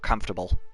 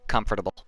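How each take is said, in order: First: The syllables are slurred together into fewer. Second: The syllables are said fully and separately. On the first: The speaker calls it wrong. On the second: The speaker calls it right.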